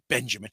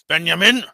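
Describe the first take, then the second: First: The name is said with a plain English accent. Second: The name is said with a Dutch accent.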